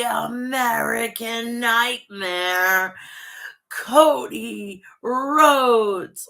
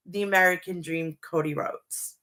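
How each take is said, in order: First: Drawn-out ring announcer call, very slow on the name; ring announcer intro. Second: Said in the usual way. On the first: Pretend. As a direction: stretch the name out like an arena introduction.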